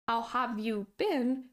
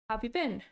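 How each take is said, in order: First: Every word is pronounced fully and separately. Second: The words are squeezed together with sounds dropped. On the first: "the expression, how have you been" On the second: "turns into have you been"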